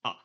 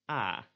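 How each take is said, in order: First: "A" short, made in the back of the mouth; lax back vowel. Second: "A" drawn out, made further forward in the mouth; tense front vowel. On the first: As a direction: say "A" briefly, far back in the mouth. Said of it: "It's kind of in the back of your". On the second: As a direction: hold "A" longer, toward the front of the mouth. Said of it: "It's more in the front of your mouth". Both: Shown as a demonstration.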